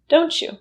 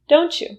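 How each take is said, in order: No difference in how they are said.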